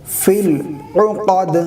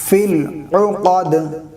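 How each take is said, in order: No difference in how they are said.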